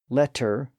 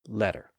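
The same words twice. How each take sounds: First: The middle consonant is a clear T sound. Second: The middle consonant is a quick tap. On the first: The earliest stage of the sound. "from an initial T sound" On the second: The contemporary stage of the sound. "more of a tap"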